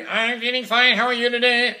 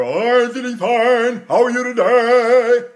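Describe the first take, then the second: First: Sung higher; sung like speech. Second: Sung loud, slow and higher; sung, full tenor sound; big operatic singing. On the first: Teacher showing speech-like singing. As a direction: sing it as you'd speak. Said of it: "It's gotta be". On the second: Sung, teacher showing full voice. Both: Shown as a demonstration.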